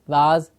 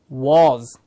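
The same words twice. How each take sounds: First: The vowel sounds like an 'a'. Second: The vowel sounds like a clear 'o'. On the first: The speaker calls it wrong. "also inverts with the sound of a to say was" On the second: The speaker calls it right. "the target sound that we are looking for, the clear good sound"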